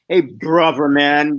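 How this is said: It is said in an exaggerated, mocking tone. It mocks and belittles the listener. "the exaggerated tone and the voice"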